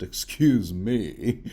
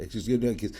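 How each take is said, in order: First: Slow, hammed-up Dornish accent; playful fake Dornish accent; mock Dornish accent. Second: Said in the usual way. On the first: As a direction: put on a Dornish accent for "Excuse me". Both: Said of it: "I tend to have this Dornish accent".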